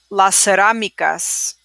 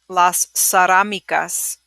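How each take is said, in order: No difference in how they are said.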